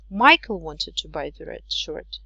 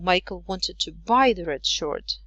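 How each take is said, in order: First: The strongest stress falls on the word Michael. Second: The strongest stress falls on the word buy. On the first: It was this person, not someone else. "not Jake" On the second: He meant to buy it, not sell or borrow it. "not sell it or not borrow it"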